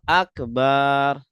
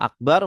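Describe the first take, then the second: First: The 'ba' vowel is drawn out long. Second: The 'ba' vowel is said short. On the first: A drum. The speaker calls it wrong. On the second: Greatest. The speaker calls it right.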